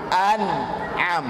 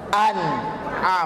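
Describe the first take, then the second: First: The middle is said with a glottal stop. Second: The middle is said with a glottal stop.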